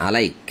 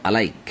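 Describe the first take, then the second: No difference in how they are said.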